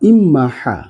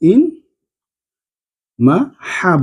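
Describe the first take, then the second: First: The n merges into the following m sound. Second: The first word ends with a clear n sound. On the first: "ইম মাহা বলা হচ্ছে" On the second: "ইন মা হা বলছি"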